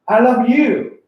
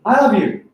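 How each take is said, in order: First: The stress falls on the word you. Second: The stress falls on the word I. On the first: The one who is loved is you, not someone else. "The focus is me" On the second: The one who loves is me, not someone else. "I'm highlighting I. I'm indicating it's not him"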